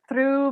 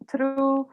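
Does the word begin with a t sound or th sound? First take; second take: th sound; t sound. First: The word begins with a th sound. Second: The word begins with a t sound. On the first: This is the speaker's own way of saying it. "I pronounce it through" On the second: This is how it is said in some other countries. "in some countries they pronounce it"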